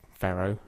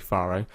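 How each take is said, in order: First: It is pronounced in an American way. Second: It is pronounced in a non-American way. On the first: "I think Americans say Faro" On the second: "I would say Faro"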